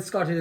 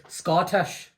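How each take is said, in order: First: Said in the usual way. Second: "Scottish" in a Scots accent, rising at the end. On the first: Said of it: "you can also say, if you wanted Scottish". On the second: Shown as a demonstration. Host shows his guest how to say it, Scottish accent on "Scottish". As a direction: say "Scottish" like a Scot, lifting the ending. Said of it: "if you wanted Scottish".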